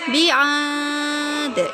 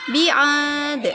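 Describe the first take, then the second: First: The long vowel is held for four counts. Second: The long vowel is held for two counts. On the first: A reading pace suited to beginners. "kalau empat juga boleh" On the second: A fast recitation pace. "bi'ad itu dua"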